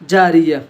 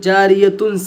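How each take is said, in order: First: The word ends with an a vowel. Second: The word ends with a tun sound. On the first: The reader stops at this word. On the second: The reader continues without stopping.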